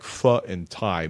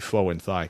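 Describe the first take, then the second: First: The name is given its standard pronunciation. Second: The name is given a joking, mangled pronunciation. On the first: The speaker calls it right. "I know it's uh, like pho and thigh" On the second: The speaker calls it wrong. "but I like to say Faux and Thigh"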